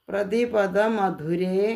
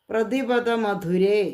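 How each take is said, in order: No difference in how they are said.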